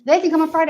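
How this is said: The stress is on the word they. Only this group is welcome, nobody else. "I want them to come and nobody else"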